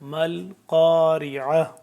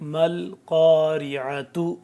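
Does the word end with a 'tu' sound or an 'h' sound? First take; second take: h sound; tu sound. First: The word ends with a soft 'h' sound. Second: The word ends with a 'tu' sound. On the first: The reader stops at this word. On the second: The reading continues without stopping.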